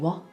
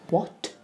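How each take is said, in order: First: The final T is left off. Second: The final T is clearly pronounced. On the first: "a lot of the time we'll say" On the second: "if you want to make a point"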